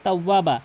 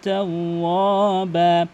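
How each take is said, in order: First: The final 'ba' vowel is cut short. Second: The final 'ba' vowel is held long. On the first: The speaker calls it wrong. "অধিকাংশ লোক তাওয়াবা মানে বাকে তাড়াতাড়ি ছেড়ে দেয়" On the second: The speaker calls it right. "অবশ্যই বাকে এক আলিফ টেনে পড়বেন"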